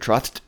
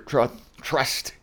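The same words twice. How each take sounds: First: The s sound is said with a lisp. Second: The s sound is said clearly.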